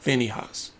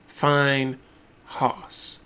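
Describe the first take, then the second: First: The name sounds like 'Phineas', with a short 'fin'. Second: The name sounds like the words 'fine house'. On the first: The speaker calls it wrong. "not Phineas" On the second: The speaker calls it right. "Finehouse is the way you pronounce it"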